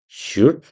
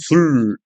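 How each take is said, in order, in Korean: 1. 마지막 소리를 짧게 끊습니다. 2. 마지막 L 소리를 길게 늘입니다.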